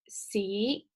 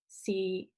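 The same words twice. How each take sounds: First: The syllable is said with the second tone. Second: The syllable is said with the sixth tone.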